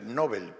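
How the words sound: It is said the common Spanish way. "Todo el mundo dice Nobel"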